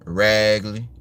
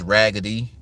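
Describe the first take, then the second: First: The middle consonant is an L sound, New Orleans style. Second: The middle consonant is a D sound.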